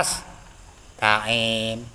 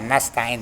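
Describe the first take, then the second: First: A short pause splits the word after nas. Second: The word is said smoothly without any pause. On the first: The speaker calls it wrong. "Apa kok berhenti? Ya keren. Tak boleh" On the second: The speaker calls it right. "dalam satu kalimat"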